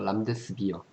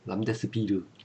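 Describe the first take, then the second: First: The ending is said as 'bi-eo', without 'r'. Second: The ending is said as 'bi-reu', with 'r'. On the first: This is the British-style reading. "비어 그런 거는 영국식 발음이고" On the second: This is the Japanese-style reading. "람데스비르 르 쓰는 거는 어 일본의 일본식 발음"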